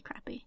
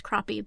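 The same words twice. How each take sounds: First: "crappie" said as "crappy"; fun mispronunciation of crappie. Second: "crappie" said as "croppy"; correct pronunciation of crappie. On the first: Cohost enjoys the wrong version, "crappie" pronounced crappy. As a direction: say "crappie" with the a of "cat". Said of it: "it's fun to say crappie". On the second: Cohost explains the fish name, "crappie" pronounced croppy. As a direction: say "crappie" with an ah, rhyming with "poppy". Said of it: "It's actually pronounced crappie". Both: Shown as a demonstration.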